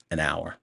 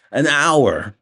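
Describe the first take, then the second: First: Said in the usual way. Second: AN HOUR, louder and higher in disbelief; shocked exclamation. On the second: Real, not acted. Reviewer shocked by an hour of movie left, exclaiming.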